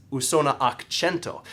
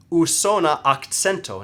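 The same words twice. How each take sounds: First: Akcento said "ak-CHEN-to"; corrected to ch. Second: Akcento said "ak-TSEN-to"; mistaken ts in akcento. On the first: Shown as a demonstration. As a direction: say akcento with ch after the k. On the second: Retold or imitated. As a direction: say akcento with ts where ch belongs. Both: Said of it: "no, that's incorrect".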